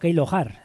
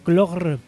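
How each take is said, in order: First: The name is said as letters, Keilohar. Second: The name is said as one word, Klogr. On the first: The speaker calls it right. "Realmente la pronunciación, según apuntan por aquí, sería más o menos la siguiente" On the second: The speaker calls it wrong. "pero no se pronuncia así"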